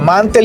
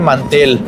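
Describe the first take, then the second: First: It is said with German pronunciation. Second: It is said with Spanish pronunciation. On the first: "Se pronuncia mantel" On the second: "en español se dice mantel"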